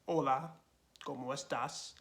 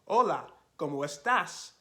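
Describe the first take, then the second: First: It is said flatly with little energy. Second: It is said with more energy and livelier pitch. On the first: The speaker calls it wrong. "you can't just say words like" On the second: The speaker calls it right. "with more energy, and you're going to have a different pitch"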